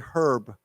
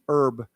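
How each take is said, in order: First: The word starts with an h sound. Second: The word starts without an h sound. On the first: "a lot of people, they read and they say herb" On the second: "with an E R B"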